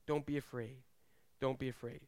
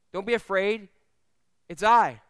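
First: Softer, lower, gentle repeat; calm a frightened listener; soft reassurance. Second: Louder firm reassurance; firm call. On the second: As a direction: call out across the water. Jesus calling over storm. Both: Acted.

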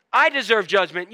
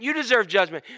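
First: "I" punched at the front; stress on I. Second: "You" leaned on at the front; stress on You. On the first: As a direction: hit "I" hard, then let it fall away. Sets self beside the listeners. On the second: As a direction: hit "You" first, then let it fall. Turns same words on the listeners. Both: Shown as a demonstration.

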